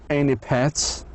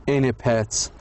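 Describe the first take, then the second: No difference in how they are said.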